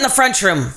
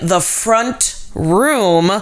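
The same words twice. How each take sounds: First: The words are slurred together as one. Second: The words are said separately and clearly. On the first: "mix up the words together, just slosh it together" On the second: "instead of saying the front room"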